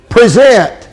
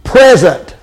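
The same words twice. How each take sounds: First: "present" said as pree-ZENT; "present" as the verb, stress on ZENT; noun-like reading. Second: "Present" said as PREZ-ent; "Present" with stress on PREZ, like a gift; noun reading. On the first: Preacher contrasting the verb "present". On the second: Preacher saying "Present" as the gift word. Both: Shown as a demonstration. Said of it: "Can I say it another way?".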